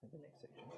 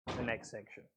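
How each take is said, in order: First: Soft whispered echo of the phrase; whispered repeat. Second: Said in the usual way. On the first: Shown as a demonstration. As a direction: whisper it back to yourself.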